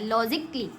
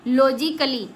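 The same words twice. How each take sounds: First: No vowel is sounded between the k and l. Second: A vowel is sounded between the k and l. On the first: The speaker calls it right. "इसको लॉजिकली पढ़ा जाता है" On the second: The speaker calls it wrong. "बच्चे कुछ ऐसे पढ़ते हैं"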